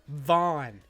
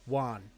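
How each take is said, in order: First: The name begins with a V sound. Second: The name begins with a W sound. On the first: "like our friend would be like Vaughn" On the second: "our boss could not pronounce the V in my name"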